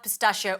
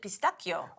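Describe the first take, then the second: First: It is pronounced the usual English way. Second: It is pronounced the Italian way.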